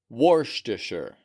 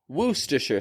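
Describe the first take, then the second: First: The word is said with an R sound. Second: The word is said with no R sound. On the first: "I actually learned to pronounce it like Worcestershire" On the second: "They don't pronounce the R at all"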